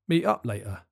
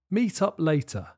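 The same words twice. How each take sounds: First: The T sounds are replaced by glottal stops. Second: The T sounds are clearly pronounced.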